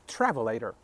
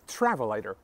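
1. تکیه روی هجای اول است. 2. تکیه روی هجای اول است.

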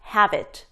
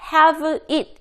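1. 두 단어는 한 단어처럼 이어서 발음해요. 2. 두 단어는 따로 발음해요. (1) "이런 식으로 연결되는 거" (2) "이게 아니라"

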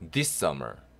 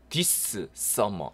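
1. 두 개의 s 소리는 하나로 합쳐집니다. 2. 두 개의 s 소리는 따로 발음됩니다. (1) "연결이 되면" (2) "요 발음도 두번 겹치기 때문에 this summer 이렇게 발음하지 않습니다"

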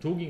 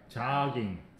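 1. 첫 모음은 둥근 oh 소리예요. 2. 첫 모음은 열린 소리예요. oh와 ah 사이예요. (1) "조깅 하면 안 돼" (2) "이제 O 하고 아 사이 발음을 해야 돼요"

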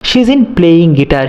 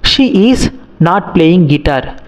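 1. 'She is not' ని 'sheezin' అని కలిపి పలుకుతారు. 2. 'she is not' లోని ప్రతి పదం విడిగా పలకబడుతుంది. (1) "నేను షీజింట్ అని అంటే" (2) "నాకు ప్రొనౌన్సియేషన్ అనేది కొంచెం కష్టంగా ఉంది"

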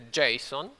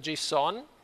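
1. L'accento è sulla prima sillaba. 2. L'accento è sulla seconda sillaba.

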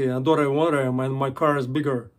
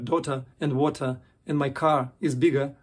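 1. Произносится с американским английским акцентом. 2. Произносится с британским английским акцентом. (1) "по-американски" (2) "мне нравится говорить по-английски"

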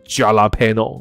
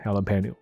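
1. 这个单词以J的发音开头。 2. 这个单词以H的发音开头。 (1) "所以这个J 开头它不是jalapeno" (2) "它是H 的发音"

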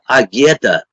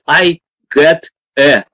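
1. Слова звучат слитно, как одно целое. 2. Слова произносятся отдельно, по одному. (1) "это агета" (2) "наши читают"

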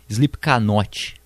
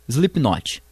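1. O nome é dito na pronúncia antiga e errada. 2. O nome é dito na pronúncia atual.

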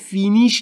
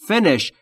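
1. مصوت اول یک صدای بلند "ee" است. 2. مصوت اول یک صدای کوتاه "i" است.

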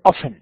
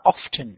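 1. يُنطق بالنطق الأمريكي. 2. يُنطق بالنطق البريطاني. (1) "والأمريكان يقولون often" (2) "البريطانيين ينطقونها often"

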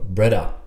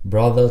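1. Wymawia się w londyńskim slangu. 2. Wymawia się w standardowy sposób. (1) "tylko brother" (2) "nie mówimy brother"

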